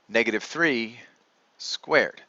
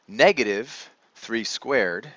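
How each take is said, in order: First: Negative three is grouped before squared. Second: Negative is set apart from three squared. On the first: Negative three as a whole is squared. "Listen to the tone for F and G" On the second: Only the three is squared, then made negative. "Listen to the tone for F and G"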